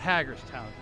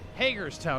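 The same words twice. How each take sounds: First: The first syllable sounds like the word 'hag'. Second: The first syllable does not sound like 'hag'. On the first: The speaker calls it wrong. "not Hagerstown. As the lady at the tire shop said, we're not hags" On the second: The speaker calls it right. "It's Hagerstown"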